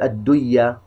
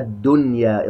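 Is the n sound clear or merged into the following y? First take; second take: merged; clear. First: The n sound merges into the following y. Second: The n sound is pronounced clearly and distinctly. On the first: The speaker calls it wrong. "ولا نقول الدنيا" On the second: The speaker calls it right. "نظهرها الدنيا إظهار مطلق"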